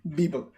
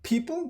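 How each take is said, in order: First: The word begins with a B sound. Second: The word begins with a P sound. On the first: The speaker calls it wrong. "many people that speak Arabic will say Bibel" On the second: The speaker calls it right. "Instead of people"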